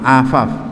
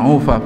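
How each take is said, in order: First: The word begins with an a vowel. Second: The word begins with a u vowel. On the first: The speaker calls it right. "bi fathil ain" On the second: The speaker calls it wrong. "bukan ufaf"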